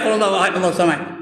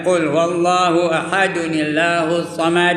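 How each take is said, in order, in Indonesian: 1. Ahad langsung bersambung ke kata berikutnya tanpa bunyi n. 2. Ahad disambung ke kata berikutnya dengan bunyi n. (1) "Ini dak" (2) "Ada cara sambungnya"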